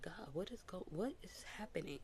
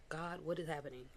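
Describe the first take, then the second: First: Breathy, hushed question to God; whispered plea to God. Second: Said in the usual way. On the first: Retold or imitated. Asking God what is happening, in a whisper. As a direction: whisper it like a private prayer. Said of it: "And I'm like".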